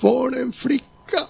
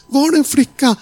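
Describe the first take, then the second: First: High, tearful, slow cry of disbelief. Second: High, louder, breaking cry. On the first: Young woman at the restaurant crying to the preacher, high tearful cry. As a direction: sob the question out, higher. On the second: Young woman repeating her question to the preacher, louder high crying wail. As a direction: wail the question again, much higher. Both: Retold or imitated. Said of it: "Hon bara skrek ut".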